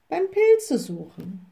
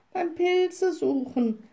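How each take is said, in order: First: Slow, higher echo with a touch of pondering; repeating back. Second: Put-on high, slow little-girl voice; girl adding on. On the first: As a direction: repeat it lightly as the little witch. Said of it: "wiederholte die kleine Hexe". (langsam und höher wiederholend) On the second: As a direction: add it as a girl, drawn out and high. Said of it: "ergänzte das Mädchen". (hohe, langsame Mädchenstimme) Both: A narrator's reading.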